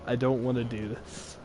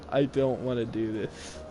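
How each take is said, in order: Both takes have the same delivery.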